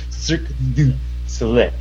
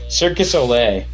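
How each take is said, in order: First: Every word is clearly enunciated, including the middle one. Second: The middle word is slurred and barely heard. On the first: The speaker calls it right. "There's a du right in the middle" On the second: The speaker calls it wrong. "it always sounds like Cirque du Soleil"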